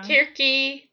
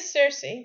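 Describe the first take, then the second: First: The name begins with a k sound. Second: The name begins with an s sound. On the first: This is the classical Greek pronunciation. "in classical Greek it's like Kirki" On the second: This is the English pronunciation. "It's a soft C in English"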